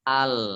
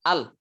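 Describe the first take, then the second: First: The l sound continues only partly, then stops. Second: The l sound is cut off abruptly. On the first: The speaker calls it right. "Yang betul adalah" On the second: The speaker calls it wrong. "Kalau yang syiddah itu begini, nah langsung terputus"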